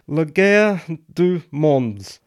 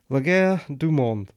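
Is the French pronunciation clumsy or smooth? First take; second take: clumsy; smooth. First: The French title is pronounced clumsily. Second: The French title is pronounced more smoothly. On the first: The speaker calls it wrong. "that terrible piece of French that I tried to pronounce properly" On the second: The speaker calls it right. "Let me try that again"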